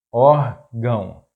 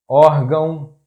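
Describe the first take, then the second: First: Órgão slowly split, ór - gão; syllable by syllable. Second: Órgão as one word, loud stress on ÓR; stress on accented syllable. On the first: Teacher breaking down an example word, órgão slow in syllables. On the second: Teacher giving a two-accent example, órgão stressed on ÓR. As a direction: say órgão joined up, punching the first syllable. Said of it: "the stressed syllable is that one". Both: Shown as a demonstration.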